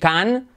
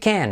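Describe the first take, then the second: First: The vowel is an open 'ah' sound. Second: The vowel is like the 'a' in 'thank'. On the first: The speaker calls it wrong. "No decir can" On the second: The speaker calls it right. "sino como thank you can"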